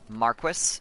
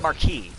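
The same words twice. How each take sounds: First: It uses the British and Canadian pronunciation. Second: It uses the American spelling-based pronunciation. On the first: "an acceptable pronunciation of the word marquis in English. It is typically a Canadian use or uh, like British use" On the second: "in America, a lot of the time you see M A R Q U I S and someone's like, that's marquis"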